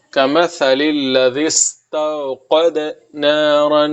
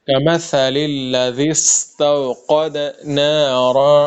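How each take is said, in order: First: استوقد with soft ت, slowly. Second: کمثل soft ث, الذی soft ذ, slow; soft tha and dhal. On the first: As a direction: keep the ت in استوقد light. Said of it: "تا کو آپ نرمی سے پڑھے". (استوقد میں ت نرمی سے، آہستہ) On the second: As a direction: recite کمثل الذی استوقد نارا slowly, soft ث and ذ. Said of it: "سا کو نرمی سے پڑھنا ہے". (کمثل میں ث اور الذی میں ذ نرمی سے) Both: Shown as a demonstration.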